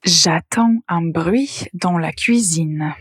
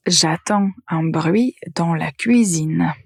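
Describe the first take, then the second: First: Slow, careful reading of the wrong sentence; slow dictation pace; slow example read. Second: Said in the usual way. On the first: Shown as a demonstration. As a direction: read it slowly so they can catch the mistake. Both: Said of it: "Écoutez bien la phrase".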